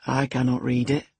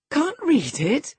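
First: Said in the usual way. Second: Much higher, slow, louder Can't read it; astonished cry, stretching read; incredulous cry. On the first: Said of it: "he answered". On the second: A narrator's reading. Catherine to Hareton, high incredulous cry. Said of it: "cried Catherine".

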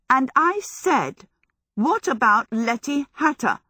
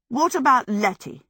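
First: Insistent repeat. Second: Raised, pointed demand; pointed question. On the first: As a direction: press the question, refusing to be sidetracked. Sophie insistently repeats her question. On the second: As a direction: challenge him, refusing his plea. Sophie confronts Howl, first asking. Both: A narrator's reading.

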